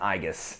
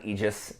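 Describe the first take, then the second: First: The word has a Latin-style pronunciation. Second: The word has an anglicized, non-Latin pronunciation. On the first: The speaker calls it right. "I pronounce it in Latin" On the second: The speaker calls it wrong. "it's not an"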